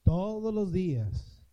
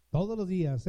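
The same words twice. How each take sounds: First: "todos los días" drawn out slowly, each word given weight; a slow, solemn "todos los días" voiced as Christ's promise; slow tender promise. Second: Said in the usual way. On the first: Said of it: "He aquí yo estoy con ustedes".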